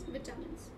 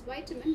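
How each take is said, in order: First: It is said in the British way. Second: It is said in a non-British way. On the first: The speaker calls it right. "the correct pronunciation is vitamins. Like we do the British way" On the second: The speaker calls it wrong. "We can also pronounce it as vitamin"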